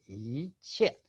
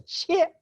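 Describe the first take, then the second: First: 切 in a falling fourth tone. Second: 切 in a high, level first tone. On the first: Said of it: "in the fourth tone". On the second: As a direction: say 切 high and held level, without dropping. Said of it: "first tone". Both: Shown as a demonstration.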